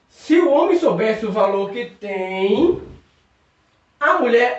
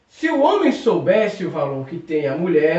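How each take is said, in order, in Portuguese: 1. Lê-se com uma pausa depois de 'tem'. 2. Lê-se depressa, sem pausa depois de 'tem'. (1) "Eu vou colocar vírgula em dois locais" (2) "você leu muito rápido, não teve pausa"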